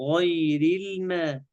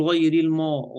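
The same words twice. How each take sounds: First: Heavy "غير", thin "ma" in "الماء"; careful front vowel on "الماء"; light meem. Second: "الماء" darkened to "mo" after "غير"; quick faulty thick m in "غير الماء"; wrong heavy meem. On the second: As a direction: carry ghayn's heaviness into "الماء". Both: Shown as a demonstration. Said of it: "حروف ميم تبس".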